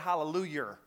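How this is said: It is said in a backcountry church style. "they say hallelujah. That's how they say it"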